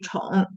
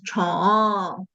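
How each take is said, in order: First: It has no added fall at the end. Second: It ends with a small falling tail. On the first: "the original lexical tone should be" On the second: "this one goes 宠, and you can hear the little tail"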